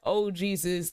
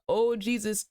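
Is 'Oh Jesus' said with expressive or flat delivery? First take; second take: flat; expressive. First: It is said plainly with little vocal inflection. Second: It is said with strong, expressive vocal inflection. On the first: The speaker calls it wrong. "if he would have just said" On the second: The speaker calls it right. "He had to say it like with that, uh"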